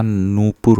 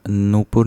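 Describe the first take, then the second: First: नूपुर with a long first "oo", as "noopur"; correct long vowel. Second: नूपुर with a short first "u", as "nupur"; wrong short vowel. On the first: Teacher correcting, नूपुर with long "noo". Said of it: "न पे बड़ा ऊ". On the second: Teacher showing the error, नूपुर with short "nu". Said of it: "नहीं होता". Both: Shown as a demonstration.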